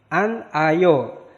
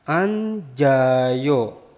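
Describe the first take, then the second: First: The final consonant is split from the next syllable. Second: The final consonant runs into the next syllable.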